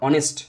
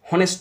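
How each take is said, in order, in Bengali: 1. শব্দটি স্বরধ্বনি দিয়ে শুরু হয়, কোনো h নেই। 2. শব্দটি h-এর ধ্বনি দিয়ে শুরু হয়। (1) "এখানে উচ্চারণটা অনেস্ট" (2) "হনেস্ট নয়"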